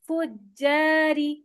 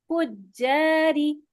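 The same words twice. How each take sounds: The two takes are said the same way.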